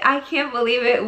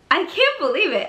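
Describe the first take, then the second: First: Said in the usual way. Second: High, excited disbelief; amazed disbelief. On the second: Real, not acted. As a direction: gasp it out in wonder. Repeats in disbelief.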